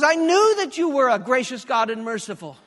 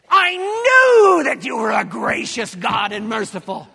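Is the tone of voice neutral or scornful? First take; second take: neutral; scornful. First: It is read in a plain, neutral tone. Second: It is said in a scornful, resentful tone. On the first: The words simply praise God's qualities. "Those are the words, but I guarantee you that was not the tone he used" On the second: The speaker resents God for being too soft. "it would have sounded something like this"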